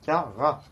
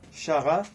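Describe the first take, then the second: First: The word begins with a K sound. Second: The word begins with an SH sound. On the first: The speaker calls it right. "Ça fait K" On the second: The speaker calls it wrong. "Il y en a, ils diront Chara. Non, c'est pas parce qu'il y a C H que ça se prononce euh, comme chat"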